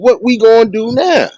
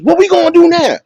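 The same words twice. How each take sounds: First: It is said in his ordinary speaking voice. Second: It is said in an imitated celebrity voice.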